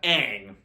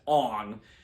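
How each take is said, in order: First: It uses the original cartoon pronunciation. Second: It uses the movie's changed pronunciation. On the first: The speaker calls it right. "You have Aang" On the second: The speaker calls it wrong. "who's pronounced as Ong"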